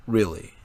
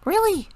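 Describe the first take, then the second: First: Lower, doubting question; low flat disbelief; skeptical low voice. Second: Much higher, cheerful confirmation; high bright really; assuring higher voice. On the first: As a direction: press her doubtfully. Leo skeptical. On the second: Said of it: "Melissa assured". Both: A narrator's reading.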